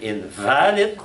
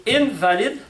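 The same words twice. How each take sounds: First: "invalid" slow, with a long rising VA; "invalid" as in-VAA-lid, meaning not valid; stress on in-VA-lid. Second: "invalid" very high on the first syllable IN; "invalid" as IN-valid, the sickness word; stress on IN-valid. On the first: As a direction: draw out the middle syllable of "invalid". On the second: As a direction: punch IN in "invalid", pitched way up. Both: Shown as a demonstration. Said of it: "the accent can change".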